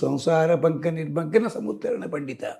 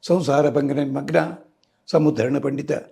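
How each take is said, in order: First: The phrase is read joined without pauses. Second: The phrase is broken up with pauses. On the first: The verse keeps its intended meaning. The speaker calls it right. "కలిపి చదవాలి" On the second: The meaning of the verse changes. The speaker calls it wrong. "విడగొట్టకూడదు చదువుతారు, అర్థం మారిపోతుంది"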